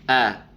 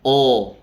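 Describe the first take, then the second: First: A light, relaxed 'a' with the tongue kept low. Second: A heavy, rounded sound close to 'o'. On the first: The speaker calls it right. "Yang benar adalah A. Pengucapannya rileks" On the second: The speaker calls it wrong. "Yang harusnya dibaca A jadi O"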